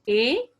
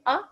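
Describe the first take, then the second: First: The vowel is a long gliding sound. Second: The vowel is a short, clipped sound. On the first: This is the vowel's name. "हम उनकी name बता रहे हैं" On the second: This is the vowel's sound. "आप इनकी sound निकालेंगे अ"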